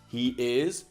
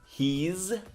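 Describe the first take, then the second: First: It is said as two separate syllables. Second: It is said as one contracted syllable.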